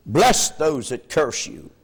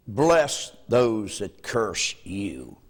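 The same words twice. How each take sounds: First: "Bless those that curse you" at full level, stressing "Bless"; firm emphasis. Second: Slow low "Bless those that curse you", weight on "Bless"; slow emphasis. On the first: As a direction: state it firmly at normal height. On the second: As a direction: lay it down slowly and softly. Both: Shown as a demonstration. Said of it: "preacher repeats for emphasis".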